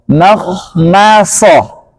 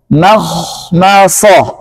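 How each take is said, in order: The two takes are said the same way.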